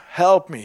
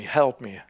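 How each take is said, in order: First: Loud urgent plea, help me; pleading. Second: Said in the usual way. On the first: Retold or imitated. Preacher retelling his prayer at the station, pleading loudly. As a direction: cry out help me louder. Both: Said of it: "Jesus, please help me".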